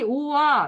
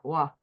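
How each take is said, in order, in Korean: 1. 두 개의 음절로 따로 발음해요. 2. 한 음절로 합쳐서 발음해요. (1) "너 이리 오와 이렇게 말한다고" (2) "다들 와, 와 이렇게 되죠"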